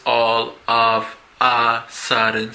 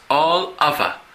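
First: All of a sudden said slowly, each word separate; all of a sudden pronounced stiffly word by word; wrong pronunciation. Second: All of a run together as ol-av-a; all of a linked like one word, American style; linked pronunciation. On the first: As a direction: break all of a sudden into four distinct words. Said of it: "No es all of a sudden". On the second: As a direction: blend all of a into one smooth unit. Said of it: "sino es all of a". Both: Shown as a demonstration.

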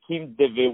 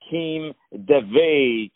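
First: Said in the usual way. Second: Davey said slowly and clearly; "Kim Davey" drawn out, each syllable clear; name spelled out slowly. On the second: Shown as a demonstration. Host introducing guest name, slow and clear. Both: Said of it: "Davey is spelled D A V E Y".

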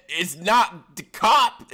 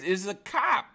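First: "cop" stretched slowly with an aw, higher and mocking; wrong pronunciation. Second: "cop" with an open ah, high; own pronunciation. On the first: Guest rejecting the host's version, mimicked "cop". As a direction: drag out the aw in "cop". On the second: Shown as a demonstration. Guest answering how do you say it, corrected "cop". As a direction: set "cop" straight with a clear ah. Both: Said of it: "How do you say it".

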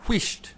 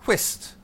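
First: "whisht" with a sh before the t; "whisht" with a hushing sh sound; Scottish pronunciation. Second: "whist" said as written, with a plain s; "whist" with no sh sound; spelling pronunciation. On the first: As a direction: say "whisht" slowly, the Scottish way, ending in -sht. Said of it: "it's pronounced whisht". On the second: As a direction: say "whist" like the card game, ending in -st. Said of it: "what is on the page". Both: Shown as a demonstration.

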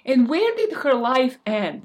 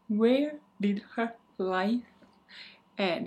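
First: Louder, punchy question; dramatic loud question. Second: Said in the usual way. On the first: Shown as a demonstration.

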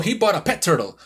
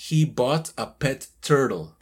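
First: "He bought a pet turtle" run together as one unit; native linking. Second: Slow "He bought a pet turtle", each word distinct; separated words. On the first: Teacher showing why learners miss words, linked delivery. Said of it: "una persona no va a detectar". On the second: Teacher spelling out the hidden sentence, word-by-word delivery. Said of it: "que es". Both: Shown as a demonstration.

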